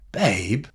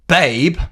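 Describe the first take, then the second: First: It sounds curious and empathetic. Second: It sounds angry. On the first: "It's a curious, empathetic tone" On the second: "It's an angry tone"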